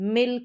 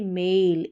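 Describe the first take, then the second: First: The vowel is short and clipped. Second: The vowel is long and drawn out. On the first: The speaker calls it wrong. "हम मिल करके नहीं बोलेंगे" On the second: The speaker calls it right. "ए का उच्चारण लंबा।"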